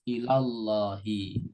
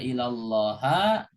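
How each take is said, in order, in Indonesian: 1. Kata itu diakhiri dengan huruf hidup i. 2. Kata itu diakhiri dengan huruf hidup a. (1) "harus ilallahi" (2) "nggak boleh dibaca ilallaha"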